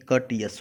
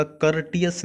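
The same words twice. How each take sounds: First: कर्टियस with no R before T; silent R. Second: कर्टियस with the R sounded before T; R pronounced. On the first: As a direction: say कर्टियस as "kuh-tiyus", dropping the R. (कर्टियस में र silent, "कटियस" जैसा उच्चारण) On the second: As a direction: say कर्टियस as "kur-tiyus", R audible. (कर्टियस में टि से पहले र का साफ़ उच्चारण) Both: Shown as a demonstration. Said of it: "यहाँ पर आर साइलेंट होगा".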